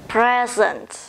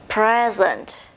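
The two takes are said the same way.

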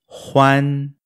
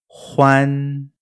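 Both takes have the same delivery.

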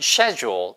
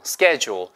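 First: It is said in a British accent. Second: It is said in a non-British accent. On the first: "영국에서는 schedule 이렇게 발음하고요" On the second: "근데 그게 아니고 schedule"

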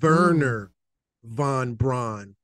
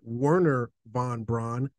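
First: The name begins with a German V sound. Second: The name begins with an English W sound. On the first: The speaker calls it right. "I want to put my little uh, German accent on as well. That W is really a double V" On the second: The speaker calls it wrong. "That's not Werner von Braun"

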